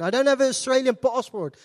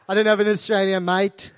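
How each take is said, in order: First: Said in the usual way. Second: Mock Aussie accent, leaning on "mate"; badly faked Australian accent. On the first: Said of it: "I can't pass for Australian". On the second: South African trying to pass at customs, put-on Australian accent. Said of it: "I try and be Australian".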